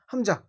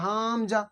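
First: হামজা short, with no lengthened vowel; correct unstretched হামজা. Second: হামজা with a long drawn first syllable; wrongly stretched হামজা. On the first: Teacher correcting the stretched mistake, short হামজা. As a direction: say হামজা briefly without any drag. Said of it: "টান হয় না". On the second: Teacher showing learners what to avoid, stretched start of হামজা. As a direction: drag out the first vowel of হামজা as a mistake. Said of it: "এমন হবে না". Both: Shown as a demonstration.

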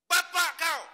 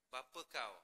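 First: "Bapa kau!" shouted much higher and louder, as an insult; angry shout. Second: Said in the usual way. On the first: Shown as a demonstration. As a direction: bark "Bapa kau!" like a furious curse. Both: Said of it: "dia orang panggil intonasi".

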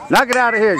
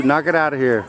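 First: Cheering shout. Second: Said in the usual way. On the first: Real, not acted. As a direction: yell it across the field. Cheering on the batter.

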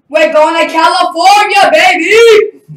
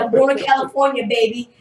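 First: High, very loud victory yell; triumphant shout. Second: Said in the usual way. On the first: Retold or imitated. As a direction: shout the big news, soaring on the last word. Retells announcing his win to dad. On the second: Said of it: "that's exactly what I said".

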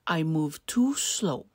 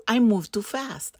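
First: Unhurried tortoise excuse; easygoing, lingering tortoise line. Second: Lively, brisk rabbit line; quick little rabbit excuse; hurried rabbit. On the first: Tortoise character, lower and slower. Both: A narrator's reading.

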